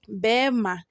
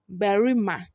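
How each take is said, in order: First: The r sound is dropped entirely. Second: The r sound is pronounced in full.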